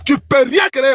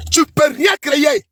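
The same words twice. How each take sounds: First: Said in the usual way. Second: Slow shouted repeat. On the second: Real, not acted.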